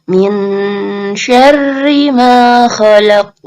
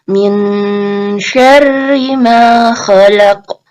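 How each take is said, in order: Both takes have the same delivery.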